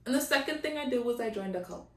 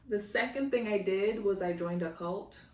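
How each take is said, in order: First: It is said quickly, slurred together. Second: It is said slowly and clearly, each word distinct.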